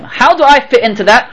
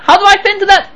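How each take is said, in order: First: Said in the usual way. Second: High, rhetorical question; questioning, much higher. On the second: Shown as a demonstration. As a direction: lift the whole question high.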